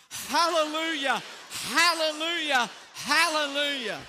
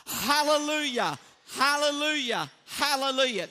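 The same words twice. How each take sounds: First: Loud, raised praise; full volume. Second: Hands cupped round the mouth, calling out loud; loud through cupped hands. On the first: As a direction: lift it up, loud and bright. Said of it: "with volume". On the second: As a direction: shout it through your hands. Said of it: "hands up over your mouth like this". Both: Shown as a demonstration.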